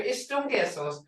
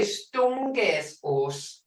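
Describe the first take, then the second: First: "Istungesos" with its opening I kept; written-form "Istungesos"; full written form. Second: "stungesos" said very slowly, with the opening I dropped; slow teaching "stungesos", no initial I; clipped spoken form. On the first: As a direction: say "Istungesos" complete. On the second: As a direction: drawl "stungesos" out for the class. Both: Shown as a demonstration. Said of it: "We say".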